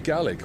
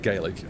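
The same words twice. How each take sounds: First: The word is pronounced the way Scots speakers say it. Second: The word is pronounced differently from the Scots way. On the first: The speaker calls it right. "in Scots you would actually say Gaelic" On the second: The speaker calls it wrong. "You wouldn't say Gaelic"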